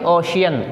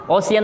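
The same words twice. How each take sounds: First: The middle consonant is an sh sound. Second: The middle consonant is not an sh sound. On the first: The speaker calls it right. "बल्कि शाह की आवाज़ पढ़ेंगे" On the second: The speaker calls it wrong. "ओशियन नहीं बोलेंगे"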